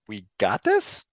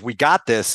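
First: It is said with doubt and hesitation. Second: It is said with firm confidence. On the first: The team doubts it can handle things. The speaker calls it wrong. "And instead you're getting kind of like" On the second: The team is sure it can handle things. The speaker calls it right. "give you that feeling of"

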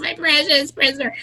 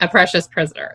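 First: It is said in a Gollum-like voice. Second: It is said in a normal speaking voice.

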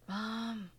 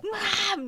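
First: It is said quietly and timidly. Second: It is screamed loudly.

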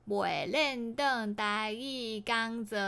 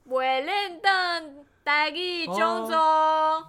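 First: 讲座 is said like 'gang-ze'. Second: 讲座 is not said like 'gang-ze'. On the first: The speaker calls it right. "讲座是刚则才对哦" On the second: The speaker calls it wrong. "刚刚念错了"

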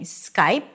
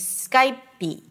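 First: The word ends cleanly on the P sound. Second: A tiny E vowel is added after the P. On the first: The speaker calls it right. "instead of saying Skype" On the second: The speaker calls it wrong. "a very tiny E sound"

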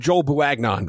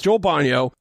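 First: The surname is sounded out as it is spelled. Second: The surname is said in a shorter, smoother form. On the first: The speaker calls it wrong. "I know that's not how you pronounce it" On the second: The speaker calls it right. "It's Joel Bonio"

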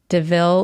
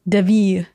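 First: The name is pronounced the plain English way. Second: The name is pronounced with a French sound. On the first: "I think that's how you say it" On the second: "With the French influence"

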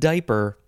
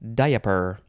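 First: The word is said with two syllables. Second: The word is said with three syllables.

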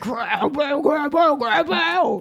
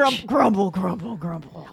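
First: It is said in a higher voice. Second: It is said in a deep voice.

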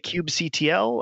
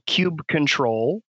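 First: The ending is spelled out letter by letter. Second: The ending is said as the word control. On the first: "Other people say kube C-T-L" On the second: "kube control is sort of the longest form"

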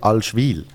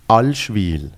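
First: The stress is on the last syllable. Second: The stress is on the first syllable.

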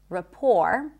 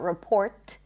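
First: No T sound is heard at the end. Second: A T sound is heard at the end. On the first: The speaker calls it right. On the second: The speaker calls it wrong. "it's not report"

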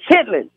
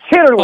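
First: The word is said in the short form chitlin. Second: The word is said in the longer form chitterly. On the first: The speaker calls it right. "is chitlin" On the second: The speaker calls it wrong. "not chitterly"

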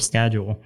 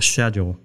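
First: It is said in an American accent. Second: It is said in a British accent.

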